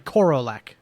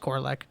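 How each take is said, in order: First: The name is said slowly, with three syllables. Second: The name is said fast, with two syllables.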